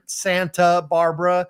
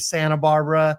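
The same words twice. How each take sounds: First: The T in Santa is clearly pronounced. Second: The T in Santa is dropped. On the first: Locals do not say it this way. "We don't say San, Santa Barbara" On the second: This is how locals say it. "We say Santa Barbara"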